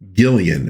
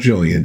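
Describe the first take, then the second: First: The name begins with a hard g sound. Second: The name begins with a soft j sound. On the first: The speaker calls it right. "It is, in fact, Gillian" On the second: The speaker calls it wrong. "It's not Jillian"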